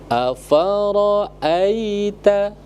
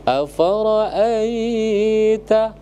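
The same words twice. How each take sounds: First: The vowel before 'ita' is kept short. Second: The vowel before 'ita' is drawn out long. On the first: The speaker calls it right. "Maka dia tidak dibaca dibaca panjang" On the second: The speaker calls it wrong. "ada yang baca afara'aita, tidak boleh"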